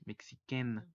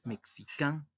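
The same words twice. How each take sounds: First: "mexiquén" ending in a clear E plus N, not nasal; teacher contrasting the feminine form, no nasal; without nasal. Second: "mexicán" ending in a nasal AN with no N sound; teacher contrasting the nasal masculine form; nasal vowel. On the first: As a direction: say "mexiquén" with a clean, open "-quène" ending. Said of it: "no se dice de forma nasal". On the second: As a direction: push "mexicán" through the nose at the end. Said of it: "y en masculino sí". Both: Shown as a demonstration.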